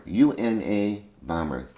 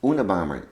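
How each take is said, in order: First: "U N A bomber" with U, N, A said as slow separate letters; spelled out. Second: Said in the usual way. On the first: Shown as a demonstration. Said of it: "Un, University, A, Airlines".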